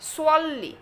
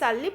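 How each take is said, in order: First: The first s sound is thick and heavy. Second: The first s sound is thin and plain. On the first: The speaker calls it right. "এই সোয়াদ শব্দটা একটু মোটা করে পড়তে হবে" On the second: The speaker calls it wrong. "আমি যদি সাল্লি পড়ি তাহলে এখানে আরবি হরফ সিনের উচ্চারণ হবে"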